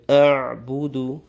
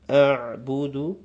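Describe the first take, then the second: No difference in how they are said.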